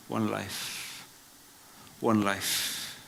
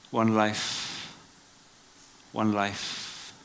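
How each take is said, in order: Both takes have the same delivery.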